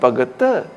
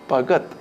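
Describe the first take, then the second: First: The last consonant is given extra emphasis. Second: The last consonant is said plainly, without emphasis. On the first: The word is a singular masculine noun. The speaker calls it wrong. "attributed hyperemphasis phoneme like pagatta" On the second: The word is a plural noun. The speaker calls it right. "the hypoemphasis phoneme is significant"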